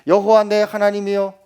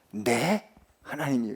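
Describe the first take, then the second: First: 여호와 leads, said louder; 여호와 first and strongest; stress on 여호와. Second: 내 hit, falling off after; 내 하나님 said as a personal claim; stress on 내. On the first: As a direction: put the weight on 여호와, not 내. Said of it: "우리 말을 잘해야 돼요". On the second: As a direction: lean on 내 to claim him as mine. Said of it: "그분과 나와의 관계를 이 한마디로". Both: Shown as a demonstration.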